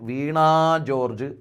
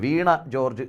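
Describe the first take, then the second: First: The final vowel of the first word is long. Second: The final vowel of the first word is short. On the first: It is the name of a person. The speaker calls it right. "അത് തമ്മിൽ ബന്ധിപ്പിക്കാൻ വീണ George എന്ന് വേണം" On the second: It means that George fell down. The speaker calls it wrong. "George എന്ന് പറയുന്ന മന്ത്രി വീണുപോയി എന്നായില്ലേ"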